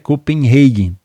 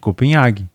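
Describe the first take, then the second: First: The name is said the English way. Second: The name is said the Portuguese way. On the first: This is the international form. The speaker calls it right. "Mas a pronúncia é Copenhagen" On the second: This is how people say it locally. The speaker calls it wrong. "Como a gente costuma chamar por aqui"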